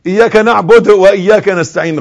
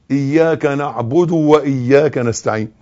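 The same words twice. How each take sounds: First: إياك نعبد وإياك نستعين run together loudly with careless short vowels; wrong hurried reading. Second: Slow, measured إياك نعبد وإياك نستعين with full vowels; correct recitation. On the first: Teacher imitating many people's mistake, إياك نعبد run on loudly. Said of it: "غلط". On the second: Teacher modelling proper reading, slow إياك نعبد وإياك نستعين. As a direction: give نعبد a short final u, reciting slowly. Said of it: "القراءة الصحيحة دي". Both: Shown as a demonstration.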